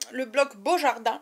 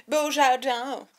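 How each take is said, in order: First: Said in the usual way. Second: "Beaujardin" drawn out in a put-on accent; mock accent on BEAUJARDIN. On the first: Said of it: "non, pardon". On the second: Vlogger correcting herself on the block's name, "Beaujardin" in a mock accent. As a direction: say "Beaujardin" slowly with a silly foreign accent. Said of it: "non, pardon, que le bloc Beaujardin".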